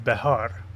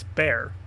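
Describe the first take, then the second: First: It has two syllables with an h in the middle. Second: It is one syllable with no h sound. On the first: This is the original pronunciation. "the proper way to say it is behar" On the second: This is how English speakers say it. "in English it's bear"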